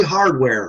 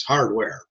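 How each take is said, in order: First: Lightly acted tester giving the test word; tester prompting. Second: Lightly acted patient echoing the word, a little subdued; patient repeating. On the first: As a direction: present the word clearly for someone to repeat. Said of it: "and they'll say". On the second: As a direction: repeat it back like a test subject. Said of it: "and the guy says".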